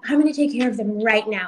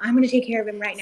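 First: Imitating the manager. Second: Eager hurry to fix it; fast, hurried manager. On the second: Retold or imitated. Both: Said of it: "and she's like".

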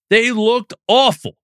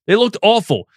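First: Slower, with awful leaned on hard; They looked awful, slow and pointed, weight on awful; stress on awful. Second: Said in the usual way. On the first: Real, not acted. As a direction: drag it out and land on awful. Repeats it for emphasis.

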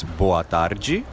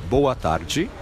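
First: Boa tarde as BO-ah TAR-jee; Portuguese boa tarde. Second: Boa tarde said again, higher and slower; repeated boa tarde. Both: Shown as a demonstration.

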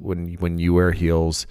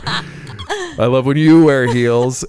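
First: Said in the usual way. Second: "you" drawn out, higher and louder; slow, lean hard on "you" in "I love when you wear heels"; stress on you. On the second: Shown as a demonstration. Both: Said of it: "had to catch myself there".

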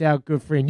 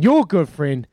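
First: Said in the usual way. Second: YOUR pushed higher and louder; stress on YOUR. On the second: Real, not acted. Host handing over to co-host's good friend, stress on "your". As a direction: lean hard on "your" as the correction.

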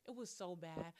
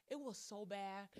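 The two takes are said the same way.

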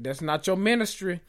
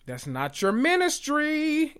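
First: Said in the usual way. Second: "ministry" sung out high and slow; sassy high repeat. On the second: Real, not acted. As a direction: lift "ministry" way up, drawn out.

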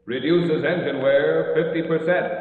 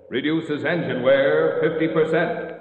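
The two takes are said the same way.

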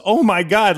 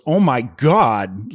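First: Higher-pitched mock scream at modest volume; half-voiced, higher retold shriek. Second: Slow, drawn-out "oh my God"; stretched-out mock gasp of disbelief; retold shocked exclamation. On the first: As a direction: imitate a girl crying out in shock. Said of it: "she screams louder than Parker". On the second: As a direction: imitate a girl's stunned cry without shouting. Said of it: "like that".

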